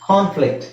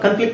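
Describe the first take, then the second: First: The first syllable has a long 'ah' vowel. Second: The first syllable has a short 'uh' vowel.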